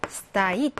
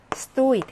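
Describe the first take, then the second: First: Стоит as sta-IT, first vowel reduced; стоит with the weight on the last syllable; stress on the ending. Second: Стоит as STO-it, clear stressed О; Стоит with the weight on the first syllable. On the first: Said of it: "서 있다는 강세가 어미에 있어요". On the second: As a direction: punch the О in Стоит. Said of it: "강세가 다릅니다". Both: Shown as a demonstration.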